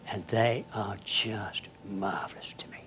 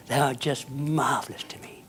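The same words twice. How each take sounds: First: Softly whispered fondness; tender whisper. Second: Said in the usual way. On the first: Real, not acted. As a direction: breathe it out with quiet affection. Tender memory of derelicts.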